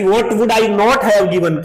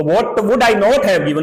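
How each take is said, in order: First: Very slow, stressing not; teacher reading slowly; slow reading aloud. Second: Very slow, stressing not; teacher repeating the line slowly; slow reading aloud. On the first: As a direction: read the line slowly, leaning on not. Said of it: "teacher reads text line". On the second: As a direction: read it slowly again, leaning on not. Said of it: "teacher reads text line again". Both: Shown as a demonstration.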